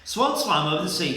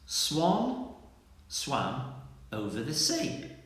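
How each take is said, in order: First: It is said quickly and hurriedly. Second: It is said slowly and carefully. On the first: The speaker calls it wrong. "Let's try a bit, bit quicker" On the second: The speaker calls it right. "I'm going to say it very slowly"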